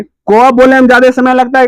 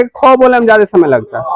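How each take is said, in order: First: को said short and crisp with little breath; को clipped short, unaspirated; a quick light को, no puff of air; short unaspirated demo. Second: खो said with a strong breathy puff of air; खो breathed out long and aspirated; a drawn, airy खो with a clear h; aspirated demo. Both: Shown as a demonstration. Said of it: "अब तू खुद ही सोची".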